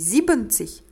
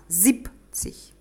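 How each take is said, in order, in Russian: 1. Три слога, с полным sieben. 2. Два слога, с сокращённым sieb. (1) "Не siebenzig" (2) "а siebzig"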